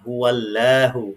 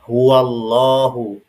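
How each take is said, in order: First: The l in Allah is light and thin. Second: The l in Allah is heavy and thick. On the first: The speaker calls it wrong. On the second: The speaker calls it right. "lamnya menjadi tebal"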